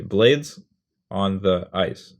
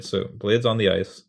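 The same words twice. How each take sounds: First: Blades on the ice, slow, blades loud and rising; stress on blades. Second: Blades on the ice, a bit slow, blades leaned on; stress on blades. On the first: Teacher scanning the phrase aloud for students. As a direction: hit blades, draw out on the ice. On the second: Teacher repeating the scanned phrase for the class. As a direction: say blades on the ice evenly, blades first. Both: Shown as a demonstration. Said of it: "what we just did there is called scansion".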